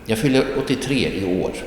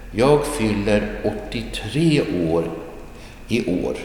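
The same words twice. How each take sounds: First: Said in the usual way. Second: Careful model reading. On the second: Shown as a demonstration. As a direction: stretch each word, pausing before the end. Teacher models slowly, then repeats naturally.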